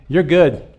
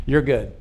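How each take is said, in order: First: Upbeat announcement, not much louder; firm reassurance. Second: Sincere. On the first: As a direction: say it out, a little louder, as a verdict. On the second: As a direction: say it gently, meaning it. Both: Shown as a demonstration. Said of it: "is tell you".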